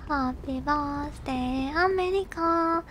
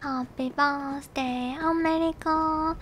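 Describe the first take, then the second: No difference in how they are said.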